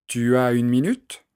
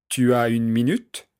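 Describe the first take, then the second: The two takes are said the same way.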